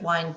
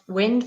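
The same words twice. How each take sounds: First: The vowel sounds like the one in 'find'. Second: The vowel sounds like the one in 'pinned'. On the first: The speaker calls it right. "but wind down" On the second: The speaker calls it wrong. "Not wind"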